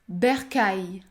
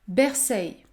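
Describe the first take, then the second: First: The word ends with an 'aille' sound. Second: The word ends with an 'eil' sound. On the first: The speaker calls it right. "La bonne prononciation est donc bercaille" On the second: The speaker calls it wrong. "Il ne faut pas dire Berceil"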